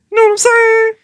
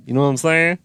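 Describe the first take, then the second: First: "You know what I'm saying?" squealed high and loud. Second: Said in the usual way. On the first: Acted. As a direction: shriek it out in glee. Repeated as a squeal.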